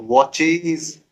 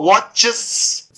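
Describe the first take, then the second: First: वॉचेस said slowly as watch-eez, long ee; corrected plural. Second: वॉचेस slow, ending in short chs with a long hiss; wrong plural. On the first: Teacher giving students the right plural, long eez ending. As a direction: stretch the end of वॉचेस into eez with z. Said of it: "तो वॉचेस". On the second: Teacher showing students the failed plural, wrong hissed ending. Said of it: "वॉचेस होगा नहीं". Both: Shown as a demonstration.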